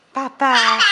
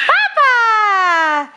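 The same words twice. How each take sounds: First: Said in the usual way. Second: High, loud, drawn-out echo; excited echo. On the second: Shown as a demonstration. Parent echoes Elise's word back, high and excited. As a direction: celebrate the word in a raised pitch. Cheering the toddler's attempt.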